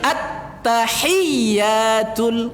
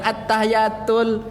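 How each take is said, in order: First: The y sound is doubled and held longer. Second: The y sound is single and short. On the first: The speaker calls it right. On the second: The speaker calls it wrong. "bukan at-tahiyatul"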